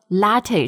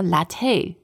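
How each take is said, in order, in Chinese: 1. 重音在第一个音节上。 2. 重音在第二个音节上。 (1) "你是说latte 是吗？" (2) "like the stress is different. ... they're thinking about the word cafe"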